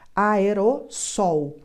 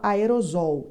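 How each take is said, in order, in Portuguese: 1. A consoante antes de -sol soa como s. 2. A consoante antes de -sol soa como z. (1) "é som de S, que nem sol" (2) "fala aerosol. Está errado. O som não é som de Z"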